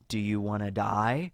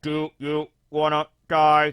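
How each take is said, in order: First: It is said in a normal human voice. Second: It is said in a robotic machine-like voice. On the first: "Do you think it's just like" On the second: "more robotic"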